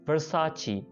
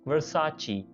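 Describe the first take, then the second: First: The name ends in a 'chee' sound. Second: The name ends in a 'chee' sound.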